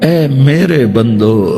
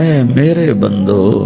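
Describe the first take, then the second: The two takes are said the same way.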